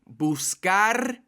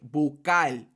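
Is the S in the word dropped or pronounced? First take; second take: pronounced; dropped. First: The S is sounded and the end sounds like R. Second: The S is dropped and the end sounds like L. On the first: "instead of saying buscar" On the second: "we say bucal. So I completely cut the S and I turn the R to a L"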